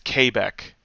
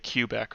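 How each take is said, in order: First: It is pronounced the French way. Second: It is pronounced the English way. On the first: The speaker calls it right. "It's Quebec is how you're supposed to say it" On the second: The speaker calls it wrong. "as in English we want to say Quebec"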